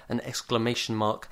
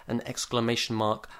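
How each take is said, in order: Both takes have the same delivery.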